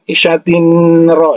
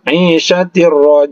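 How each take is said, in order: First: The n is heard clearly before the r. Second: The n merges fully into the following r. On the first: The speaker calls it wrong. "jangan isyatin ra, itu salah" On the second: The speaker calls it right. "dimasukkan saja isyatir ra"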